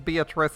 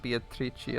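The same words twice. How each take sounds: First: The name has an English pronunciation. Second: The name has a non-English pronunciation. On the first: "It's Beatrice in English" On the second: "I'm not gonna pronounce it Beatrice unless I'm memeing"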